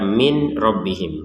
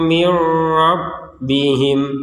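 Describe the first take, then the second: First: The n is pronounced clearly before the r. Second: The n merges into the following r sound. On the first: The speaker calls it wrong. "jangan dibaca min rabbihim" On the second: The speaker calls it right. "Dimasukkan nunnya kepada huruf ro"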